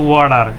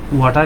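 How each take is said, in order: First: The middle consonant sounds like a d. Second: The middle consonant is a clear t. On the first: "টয়ের জায়গায় ড আসে" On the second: "British অ্যাকসেন্টে দেখি"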